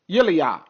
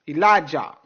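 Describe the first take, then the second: First: The name is said the non-English way. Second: The name is said the usual English way. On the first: This is the original name. The speaker calls it right. "That's the real prophet name" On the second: This is the spelling-based rendering. The speaker calls it wrong. "a totally different pronunciation like they have in English"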